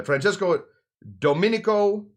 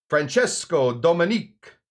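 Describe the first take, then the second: First: Francesco Domenico, sounded out to the final o; high, loud Domenico in full; corrected name. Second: Slow Francesco Dominic, the surname cut to DOMINIC; high, loud Francesco Dominic, ending on a k; mistaken name. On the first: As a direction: say Domenico with all four syllables. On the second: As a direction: say Dominic without the final o. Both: Real, not acted. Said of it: "oh, sorry, uh".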